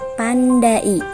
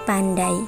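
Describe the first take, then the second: First: The a and i are split into two syllables. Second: The a and i glide together as one sound. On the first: The speaker calls it wrong. "pembacaannya tidak pandai" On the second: The speaker calls it right. "tetapi pandai"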